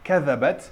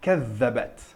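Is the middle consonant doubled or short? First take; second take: short; doubled. First: The middle consonant is short and single. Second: The middle consonant is held long and doubled. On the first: The speaker calls it wrong. "Au lieu de dire" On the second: The speaker calls it right. "on dira"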